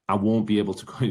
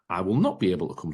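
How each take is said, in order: First: The words 'will not' are contracted to 'won't'. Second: The words 'will not' are said in full. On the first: The speaker calls it right. "You would just say" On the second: The speaker calls it wrong. "You probably wouldn't say"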